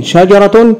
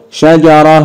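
First: شجرة said higher with the final t vowelled, shajaratun; with full vowels. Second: شجرة said shajarah, ending on h; stopped ending. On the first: Teacher shows the vowelled ending to pupils. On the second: Teacher shows the pausal ending to pupils. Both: Shown as a demonstration. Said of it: "انطق مرتين".

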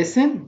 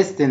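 First: "listen" said without any T sound; silent T. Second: "listen" said wrongly with a sounded T; mispronounced with T. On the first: Teacher showing pupils "listen" with a silent T. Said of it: "وحرف التي silent". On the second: Teacher imitating people who say "listen" with a hard T. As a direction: say "listen" as "lis-ten", T pronounced. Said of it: "لا غلط". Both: Shown as a demonstration.

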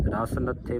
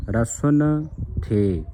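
First: ਰਸ ਨੱਥੇ split as ras, then natthe; the deliberately wrong split ਰਸ ਨੱਥੇ; ਰਸ ਨੱਥੇ with the break after ras; wrong reading. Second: ਰਸਨ ਥੇ joined as rasan, then a separate the; ਰਸਨ ਥੇ read slowly as rasan the; correct reading. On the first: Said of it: "ਇਸ ਤਰ੍ਹਾਂ ਨਹੀਂ ਪੜ੍ਹਨਾ ਕਿ ਰਸ ਨੱਥੇ". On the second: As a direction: slowly say ਰਸਨ ਥੇ with the break before the. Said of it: "ਇਸ ਦਾ ਜਿਹੜਾ ਸ਼ੁੱਧ ਉਚਾਰਨ ਹੈ". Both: Shown as a demonstration.

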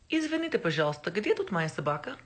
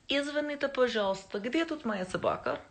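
First: Fast, careful Russian recital; Russian phrase. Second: Russian phrase again. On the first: Showing off her only Russian phrase to viewers, quick. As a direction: rattle off the one Russian line you know. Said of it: "All that I can say in Russian". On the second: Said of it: "Anybody know what that means". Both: Shown as a demonstration.

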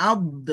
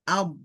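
First: আদ with a hard push on the vowel, shown as the mistake; wrong pushed আদ. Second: আদ said smoothly, no push on the vowel; correct smooth আদ. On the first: Teacher showing students the wrong আদ, pushed hard. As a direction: demo the common error: আদ forced out with a jolt. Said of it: "এভাবে ধাক্কা দেয়". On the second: Teacher modelling the right আদ, smooth and even. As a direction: let আদ flow out evenly. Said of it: "এভাবে". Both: Shown as a demonstration.

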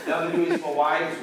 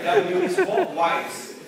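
First: Said in the usual way. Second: Very high, loud, drawn-out reveal; amused exclamation. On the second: Real, not acted. Teacher springs the quiz answer on the class, amused exclamation. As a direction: sing out the answer with a laugh.

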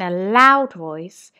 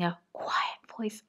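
First: Raised voice, leaning on "loud". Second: Whispered to show a quiet voice. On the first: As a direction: demonstrate a louder voice for pupils. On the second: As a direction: drop right down to a whisper. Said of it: "using a quiet voice". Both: Shown as a demonstration.

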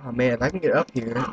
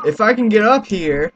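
First: Said in the usual way. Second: Louder, higher, urgent; shouting while fighting to climb up; straining shout. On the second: Real, not acted. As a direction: push the words out as you strain to climb.

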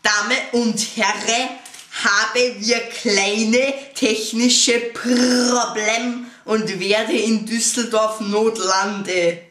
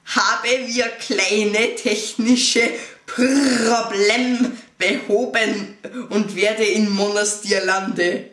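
First: Slow, loud pilot in broken German; broken German pilot announcement. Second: Broken German pilot announcement. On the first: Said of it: "in gebrochenem Deutsch". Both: Retold or imitated.

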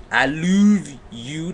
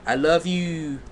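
First: "love" stretched into "loov", higher and louder; misspelling read out. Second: Said in the usual way. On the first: Acted. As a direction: slowly exaggerate "love" as "loov". Re-reads line as misspelled.

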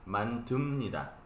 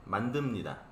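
First: "Mantumnida" with a hard t, as spelled; "Mantumnida", t sound kept, the wrong way; not how it's said. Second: "Mandumnida", voiced d, the right way; correct pronunciation. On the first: Teacher shows students the spelled wrong way, t sound. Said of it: "no se pronuncia así". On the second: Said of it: "sino así". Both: Shown as a demonstration.

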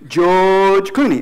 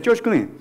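First: Slow, drawn-out "George" with a voiced "dj". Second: "George Clooney" quickly, "George" nearer "Choch"; quick casual version. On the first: Teacher modelling English G, George Clooney said slowly. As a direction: stretch "George Clooney" with buzzing G. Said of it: "pero son diferentes". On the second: Teacher repeating George Clooney for learners, quick and unstretched. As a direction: say "George Clooney" fast with hard "ch" sounds. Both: Shown as a demonstration.

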